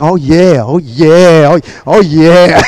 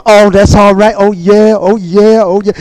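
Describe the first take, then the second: First: Low, laid-back oh-yeahs; cool priest. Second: Priest's repeated oh-yeahs, lightly acted; shouting priests, imitated. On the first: Retold or imitated. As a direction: croon it low like the cool one. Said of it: "the one that was cool". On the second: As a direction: play a priest chanting along in approval. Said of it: "some of the priests going".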